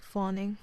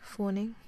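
First: "fawning" with an open, less rounded aw; American first vowel in "fawning". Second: "fawning" with a long rounded aw, like "forning"; Australian first vowel in "fawning", rising at the end. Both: Shown as a demonstration. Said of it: "different thing again, like".

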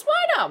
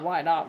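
First: Very high, loud little outburst; mock questioning. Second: Dropped low, at normal volume; mock questioning. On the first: Narrator questioning the story's logic, high mock protest. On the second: Narrator echoing the question to themselves, mock low voice.

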